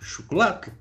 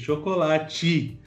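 First: It is said in a European Portuguese accent. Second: It is said in a Brazilian Portuguese accent.

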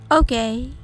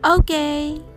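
First: It is said with a hesitant, doubtful tone. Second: It is said with bright, enthusiastic approval. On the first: It is not very good. "珍しい飲み物を初めて飲んで微妙だったとき" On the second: It is perfect. "ポジティブな意味でバッチリですという気持ちを込めて"

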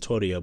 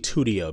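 First: The name does not rhyme with studio. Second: The name rhymes with studio. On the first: This is how someone else said it. "that's how Eric Fisher pronounced it" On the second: The name is built from the number two. "just like studio, it's probably Twodio"

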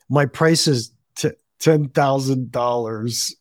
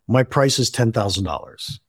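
First: It is said hesitantly, with embarrassment and a stumble. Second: It is said plainly, as a simple fact.

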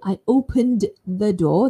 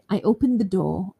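First: The sentence is said slowly and carefully. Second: The sentence is said quickly and smoothly. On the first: "being very careful" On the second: "Quite fast"

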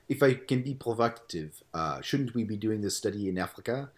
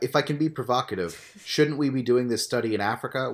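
First: It is read in a French accent. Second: It is read in the speaker's plain accent.

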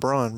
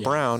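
First: The vowel sounds like 'aw' in dawn. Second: The vowel sounds like 'ow' in town. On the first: The speaker calls it wrong. "and not Braun" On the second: The speaker calls it right. "you would know it's pronounced Brown"

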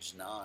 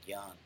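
First: It begins with a J sound before n. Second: It begins with a hard G sound. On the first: "it's hard to say Jnan" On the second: "they start saying Gyan"

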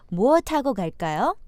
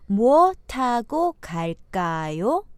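First: It is said at normal speed. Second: It is said slowly.

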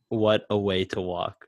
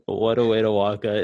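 First: The words are said slowly and separately. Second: The words are run together very fast.

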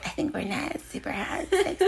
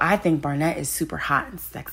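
First: It is said in a put-on imitating voice. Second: It is said in the speaker's own normal voice.

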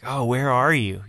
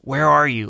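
First: The voice sounds soft and caring. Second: The voice sounds harsh and angry. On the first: God is concerned for them. The speaker calls it right. "it's probably more so the tone of like" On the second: God is angry with them. The speaker calls it wrong. "like an angry dad"

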